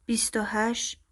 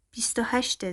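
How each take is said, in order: First: بیست و هشت said carefully, pitch rising on و; precise, weighing. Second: بیست و هشته with a plain falling end; plain statement. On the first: Arman repeats her age to the girl, carefully weighing it. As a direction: weigh each word of بیست و هشت, ending up. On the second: Mother states the girl's age to her son, plainly falling. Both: A narrator's reading. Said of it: "این بار دقیق تر گفت".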